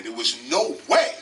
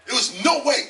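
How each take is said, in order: First: Said in the usual way. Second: "no" pushed higher and louder, a punch on "no"; stress on no. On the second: Shown as a demonstration. To the interviewer, repeating it for weight, "no" stressed. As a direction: hit "no" hard to drive it home.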